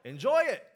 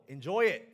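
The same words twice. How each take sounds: First: High, very loud ringing shout; rousing shout. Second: Loud call to enjoy it; loud urging. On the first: Preacher firing up the congregation, rousing high shout. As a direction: lift it into a full shout. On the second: Preacher prompting the congregation to tell neighbors, loud urging. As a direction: urge the room on, loud. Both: Shown as a demonstration. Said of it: "look to your neighbor, let 'em know".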